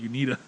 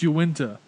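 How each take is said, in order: First: The n sound comes before the i sound. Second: The i sound comes before the n sound. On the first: The speaker calls it wrong. "You called it Unita" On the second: The speaker calls it right. "no, it's Uinta"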